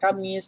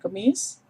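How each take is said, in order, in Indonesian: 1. Vokal pertama adalah 'a' terbuka. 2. Vokal pertama adalah bunyi 'e'. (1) "Kamis bukan Kemis" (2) "bukan Kemis"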